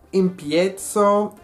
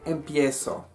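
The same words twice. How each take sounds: First: The z is said as a 'ts' sound. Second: The z is said as a plain hiss. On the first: The speaker calls it wrong. "mi boca quiere decir tz, tz, la pronunciación italiana" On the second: The speaker calls it right. "en lugar de"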